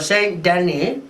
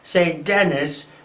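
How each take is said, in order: First: It is said with a French pronunciation. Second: It is said with an American pronunciation.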